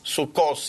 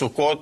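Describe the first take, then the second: First: The word ends with an o and an s sound. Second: The word ends with an o and a t sound. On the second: This is the Hebrew form. "in Hebrew end up with Taf"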